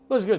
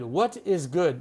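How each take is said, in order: First: The words are run together into two short syllables. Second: Each word is said separately and in full. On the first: The speaker calls it right. "You have to contract it" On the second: The speaker calls it wrong. "No one would say what is good"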